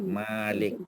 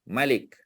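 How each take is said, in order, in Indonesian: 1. Vokal pertama panjang. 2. Vokal pertama pendek. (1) "Malik, min alif lam kaf" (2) "Kalau dia raja, buang alif"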